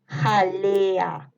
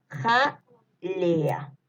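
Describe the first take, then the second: First: Drawn-out, joined "Jalea"; dictation. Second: "Jalea" broken as ja, pause, lea; syllable-split dictation. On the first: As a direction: stretch the vowels of "Jalea" without a break. (dictado alargando "Jalea") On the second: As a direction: leave a clear gap after the first syllable of "Jalea". (dictado separando "Jalea" con pausa) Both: Shown as a demonstration. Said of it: "les voy a ir dictando".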